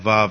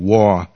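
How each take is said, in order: First: The name starts with a v sound. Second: The name starts with a w sound. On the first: This is how the name is said today. "but we pronounce that Vav nowadays" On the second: This is the original form of the name. "it's W-A-W"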